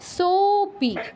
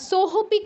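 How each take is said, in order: First: The 'o' is held long with no h. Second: An h sound is pronounced before 'pi'. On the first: The speaker calls it right. "লুপ্তয়ের জায়গায় কিছুই উচ্চারণ করছি না, তবে এর আগের অক্ষরটা দীর্ঘ উচ্চারণ করছি" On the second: The speaker calls it wrong. "আমরা নর্মালি সোহপি কেউ বলবো না"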